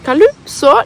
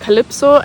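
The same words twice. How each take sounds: First: The vowel after L is a strong, emphasized u. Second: The vowel after L sounds like e. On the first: The speaker calls it right. "they really emphasize the U" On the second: The speaker calls it wrong. "some people pronounce it more like an E"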